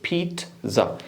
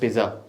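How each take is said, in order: First: The middle sound is t followed by z. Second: The middle sound is a plain z. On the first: The speaker calls it right. "पहले जी को वो पढ़ते हैं टी, दूसरे जी को पढ़ते हैं जी" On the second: The speaker calls it wrong. "Don't pronounce"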